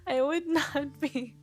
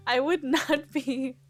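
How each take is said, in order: Both takes have the same delivery.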